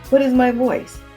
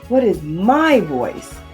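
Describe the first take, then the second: First: No word is given special emphasis. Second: The word 'my' is emphasized. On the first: "The first time, just speak plainly" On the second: "then the third word"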